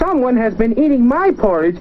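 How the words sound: It is said in a tiny, small voice. The smallest bear is speaking. "in his wee little voice"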